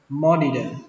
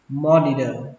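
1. Phụ âm giữa là âm d. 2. Phụ âm giữa là âm d.

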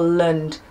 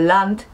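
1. To krótki, słaby dźwięk podobny do Y. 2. To pełne, otwarte A. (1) "tylko land, zamieniamy A na Y" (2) "nie mówimy land"

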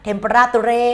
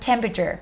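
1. ออกเสียงแบบพยางค์ฝรั่งเศส 2. ออกเสียงแบบอังกฤษ (1) "แม่เป็นฝรั่งเศสนะลูกนะเทมปราตูเรไม่ได้" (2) "อันนี้เนี่ยอ่านว่า"

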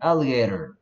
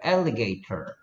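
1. 미국 억양으로 말했고, t를 flap으로 발음해요. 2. 영국 억양으로 말했고, t 소리가 또렷해요. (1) "근데 미국 사람들한테 시키면 alligator" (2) "그 선생님한테 이거 발음시키면 alligator 이런 식으로 할 거야"

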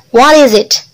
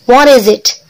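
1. 단어들이 이어져서 하나의 덩어리로 말합니다. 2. 단어들이 이어져서 하나의 덩어리로 말합니다.

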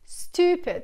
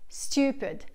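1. La vocal es una 'oo' simple, al estilo americano. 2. La vocal tiene un sonido 'yoo', al estilo británico. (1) "come se fosse un double O" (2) "Io dico stupid con il suono U per la lettera U"

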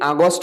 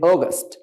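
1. প্রথম স্বরটি একটি খোলা 'ah' ধ্বনি। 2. প্রথম স্বরটি একটি গোলাকার 'aw' ধ্বনি। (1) "আমরা অনেকে আগস্ট বলি এটাকে" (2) "but it will be অগস্ট"

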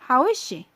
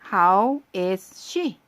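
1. 단어들이 한 흐름으로 이어져 발음돼요. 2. 단어들을 따로 발음하고 연결하지 않아요.

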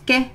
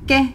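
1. يُنطق صوت الحرف القصير فقط. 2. يُنطق صوت الحرف القصير فقط.

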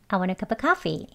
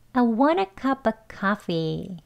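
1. 이 문장은 빠르게 말합니다. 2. 이 문장은 천천히 말합니다. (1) "빨리 발음하시게 되면" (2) "두 번 연습해 볼게요"

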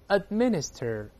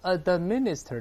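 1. d 音保持住，不爆破。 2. d 音完整爆破，有气流爆发。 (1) "这个爆破音只做口型a，舌尖顶住停一下就读出minister，没有喷出来啊" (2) "注意不要读administer"

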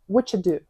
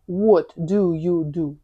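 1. Слова зливаються в скорочену форму. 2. Кожне з чотирьох слів вимовляється окремо. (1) "То на справі, тобто по факту, це 2" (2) "бачимо в підручнику what do you do, 4 слова"

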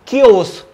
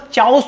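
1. शब्द की शुरुआत "k" की आवाज़ से होती है। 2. शब्द की शुरुआत "ch" की आवाज़ से होती है। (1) "लेकिन ये प्रोनाउंस होगा क्योस" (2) "काफी सारे लोग इसको चाउस बोलते हैं"

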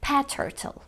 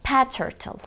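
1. T sesi yalnızca bir kez söylenir, ortak kullanılır. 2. T sesi yalnızca bir kez söylenir, ortak kullanılır.

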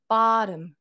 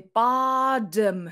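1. 真ん中の子音は、軽いフラップだ。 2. 真ん中の子音は、しっかりした強いdだ。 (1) "なと、らの間" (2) "do っていうふうには言ってない"

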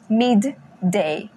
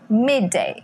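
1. Os dois sons de d são pronunciados separadamente. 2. Os dois sons de d se fundem em um só. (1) "Não fala midday" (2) "quando tem duas letras iguais juntas, a gente cancela uma delas"

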